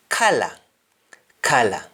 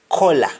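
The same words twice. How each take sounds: First: "color" said kala, with an "ah" vowel; English-style "color", open "ah" first; English pronunciation. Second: "color" said kola, with an O vowel; Jamaican pronunciation. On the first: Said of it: "In English". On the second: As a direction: say "color" the Patois way, as KOH-la. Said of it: "In Jamaican". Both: Shown as a demonstration.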